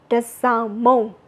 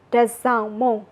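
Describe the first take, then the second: No difference in how they are said.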